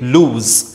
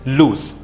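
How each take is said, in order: First: The word ends with a buzzing z sound. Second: The word ends with a hissing s sound. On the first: The speaker calls it wrong. "We commonly mispronounce this word. We say loose" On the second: The speaker calls it right. "The correct pronunciation is loose"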